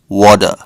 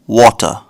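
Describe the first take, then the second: First: It is said in an American accent. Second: It is said in a British accent.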